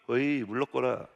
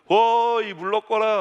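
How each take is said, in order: First: It is said softly, without shouting. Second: It is shouted loudly.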